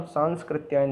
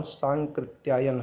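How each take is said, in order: First: सांस्कृत्यायन as "saans-krityayan"; wrong extra s. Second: सांकृत्यायन as "saan-krityayan"; no middle s. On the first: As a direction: sound an s before k in सांस्कृत्यायन. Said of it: "नहीं है". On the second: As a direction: go straight from nasal to k in सांकृत्यायन. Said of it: "सांस्कृत्यायन नहीं है". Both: Shown as a demonstration.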